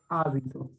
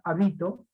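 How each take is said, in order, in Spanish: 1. El acento está en la primera sílaba. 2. El acento está en la sílaba del medio. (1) "Como está la tilde en la A, entonces sé que es esdrújula" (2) "y no voy a pronunciar habito"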